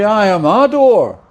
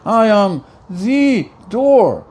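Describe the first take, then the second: First: Said in the usual way. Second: Slow, with "the" leaned on as "thee"; stress on THE. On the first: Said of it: "He doesn't say". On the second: Shown as a demonstration. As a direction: draw out "the" to mean the only one. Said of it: "There's only one door".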